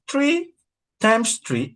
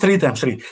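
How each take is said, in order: First: Three begins with a plain t sound. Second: Three begins with a th sound. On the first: It sounds like trees multiplied together. The speaker calls it wrong. "meaning mango tree or banana tree times each other" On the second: It means the number three multiplied. The speaker calls it right. "Instead of saying three times three"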